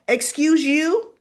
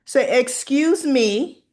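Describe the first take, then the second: First: Louder, higher excuse you with attitude; sassy correction. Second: Said in the usual way. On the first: Shown as a demonstration. Viewer correcting Leslie, sassy and loud. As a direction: snap back with a put-down. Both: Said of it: "And actually, no".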